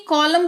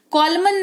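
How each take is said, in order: First: कॉलम with a silent N; correct pronunciation. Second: कॉलमन with the final N sounded; wrong pronunciation. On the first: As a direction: say कॉलम, ending on M. (सही उच्चारण, कॉलम में न मौन) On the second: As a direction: say कॉलमन, adding N after M. (गलत उच्चारण, कॉलमन में न बोलकर) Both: Shown as a demonstration. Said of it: "कॉलमन नहीं कॉलम पढ़ेंगे".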